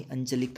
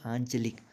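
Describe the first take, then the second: First: अंचलिक with a short plain अ at the start; wrong pronunciation. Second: आंचलिक with a nasal long आं at the start; correct pronunciation. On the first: Teacher contrasting the wrong अंचलिक he did not say. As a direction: clip the first vowel of अंचलिक. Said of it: "ना ही अंचलिक कहा मैंने". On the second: Teacher showing students his own correct आंचलिक. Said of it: "मेरे उच्चारण में देखिए". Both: Shown as a demonstration.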